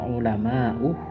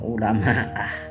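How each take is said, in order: First: The word ends with an 'u' vowel. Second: The word ends with an 'a' vowel. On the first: The speaker calls it right. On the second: The speaker calls it wrong. "u dibaca a"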